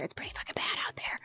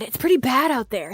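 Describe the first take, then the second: First: Unvoiced whisper, fading away. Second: Said in the usual way. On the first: Shown as a demonstration. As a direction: drop to a whisper on it. Repeats line, then whispers it.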